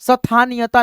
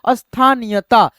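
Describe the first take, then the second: First: The word starts directly with the 'st' cluster. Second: A short 'a' vowel comes before the 'st' cluster. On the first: The speaker calls it wrong. "स्थानीयता नहीं पढ़िएगा" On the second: The speaker calls it right. "लेकिन अ का उच्चारण है"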